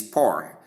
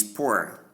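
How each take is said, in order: First: "poor" said like "pore"; long O vowel. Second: "poor" said as "poo-er"; ua diphthong. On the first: Teacher recapping the first of two pronunciations, long O. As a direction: give "poor" a long open O. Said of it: "per sound and long O sound". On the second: Teacher recapping the second of two pronunciations, ua sound. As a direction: glide from oo to uh in "poor". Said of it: "the ua sound to give poor". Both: Shown as a demonstration.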